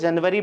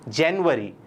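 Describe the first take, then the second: First: The word is pronounced in Hindi style. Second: The word is pronounced in English style. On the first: "Hindi में इसको जनवरी बोलते हैं" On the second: "English में क्या बोलते हैं इसको?"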